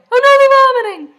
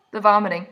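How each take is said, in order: First: Very loud, very high comic shriek; shrieked mock horror. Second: Said in the usual way. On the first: Reacting to remembered vomiting, shrieked mock horror. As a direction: wail it in exaggerated alarm.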